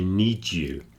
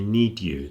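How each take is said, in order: First: The d and y merge into a j sound. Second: The d and y sounds stay separate. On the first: The speaker calls it right. "the two sounds mix together into an extra one" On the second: The speaker calls it wrong. "People don't say need you"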